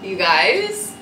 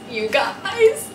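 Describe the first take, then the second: First: Said in the usual way. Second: Much higher, squealed out; high delighted squeal; excited squeal. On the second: Real, not acted. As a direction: squeal it like you can't contain yourself. Squealing at new Prada shoes.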